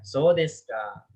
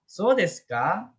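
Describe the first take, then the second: First: The pitch falls at the end. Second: The pitch rises at the end. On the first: The speaker has understood something. "turun ya" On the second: The speaker is asking a question. "kalau naik itu dia jadinya nanya gitu"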